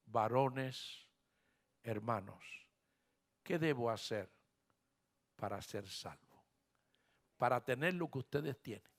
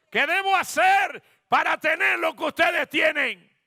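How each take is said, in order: First: Very soft, low entreaty; hushed jailer begging on his knees; humble plea. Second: Loud, high preacher's cry; full-force, high shouted question; shouted plea. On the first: Trembling jailer kneels before Paul. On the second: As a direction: belt the question out to the whole church. Same question repeated as a shout. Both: Acted.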